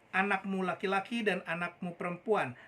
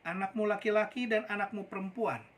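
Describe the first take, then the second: No difference in how they are said.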